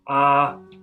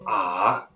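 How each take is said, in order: First: It is said with the first tone. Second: It is said with the third tone. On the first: "That's tone one"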